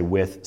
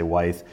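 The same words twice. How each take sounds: First: "width" said like "with"; short-i pronunciation. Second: "width" said as "wythe", with a long i; long-i pronunciation. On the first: Teacher shows one variant of the brick term, "width" said like "with". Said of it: "Some people say width". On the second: Teacher shows the other variant of the brick term, "width" said as "wythe". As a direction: make "width" rhyme with "scythe". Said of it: "some people say width". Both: Shown as a demonstration.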